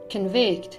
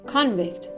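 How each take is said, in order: First: The stress is on the second syllable. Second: The stress is on the first syllable. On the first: It is used as a verb. "the verbs on the second" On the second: It is used as a noun. "the nouns stress is placed on the first syllable"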